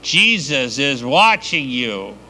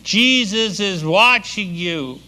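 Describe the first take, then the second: First: Slow, drawn-out eerie warning; a hidden voice calling out, slow and eerie; mysterious voice. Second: Slow warning pitched higher; the same eerie warning, now higher and drawn out; a hidden voice, higher and slow; mysterious voice, higher. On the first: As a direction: spook the robber from the dark, slowly. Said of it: "The voice kinda says". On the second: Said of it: "and he hears again". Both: Acted.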